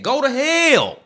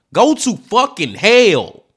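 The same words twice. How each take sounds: First: Angry curse. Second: "Go to fucking hell" slowed and louder, each word hit; heavier angry curse. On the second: Cursing the killer, slower and louder in real anger. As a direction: drag out "fucking hell" and lean on it hard. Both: Real, not acted. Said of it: "I'm getting a little upset and emotional now".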